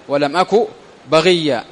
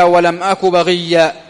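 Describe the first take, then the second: First: Said in the usual way. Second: Quranic verse recited. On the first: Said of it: "repeated after the verse". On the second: Shown as a demonstration. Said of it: "كقوله تعالى".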